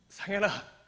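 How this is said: The name is cried out in desperate anguish.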